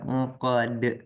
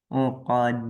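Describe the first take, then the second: First: The word ends with an extra short vowel. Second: The word ends cleanly on the final consonant. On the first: The speaker calls it wrong. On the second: The speaker calls it right.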